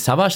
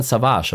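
First: Savage with stress on the first syllable, SA-vage; wrong stress. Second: Savage with stress on the last syllable, sa-VAGE; right stress. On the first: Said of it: "nicht Savage". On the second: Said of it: "sondern Savage". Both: Shown as a demonstration.

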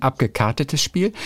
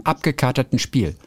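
First: Abgekartetes Spiel, with a clear r: ab-ge-KAR-te-tes; the proper form abgekartetes, from Karten, cards; correct word. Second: Abgekaterten Spiel, said with Kater, no r after the a: ab-ge-KA-ter-ten; quoting the host's slip abgekaterten, as if from Kater the tomcat; wrong word. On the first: Language cop giving the right form: abgekartetes with an r. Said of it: "Ist das nicht ein abgekartetes Spiel". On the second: Language cop reading out the host's slip: abgekaterten with no r. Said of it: "du sprachst von einem abgekaterten Spiel". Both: Shown as a demonstration.

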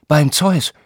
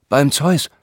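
First: Beim Zeus gasped high in mock fright; a scared oath at the monster; frightened oath. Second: Beim Zeus exclaimed higher with a rising lift; a lively mock oath; stage oath. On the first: Herr August plays the god seeing a beast, frightened oath. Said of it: "Sein Mund verzog sich voller Schrecken". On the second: Herr August recites for the men, a lively mock oath. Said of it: "verlieh so jedem Teilnehmer einen eigenen Ton".

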